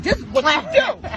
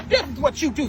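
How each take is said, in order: First: Higher, louder and slow, each word leaned on; emphatic demo. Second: Said in the usual way. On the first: Shown as a demonstration. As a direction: show him how it's done, emphatically. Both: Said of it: "show him how to".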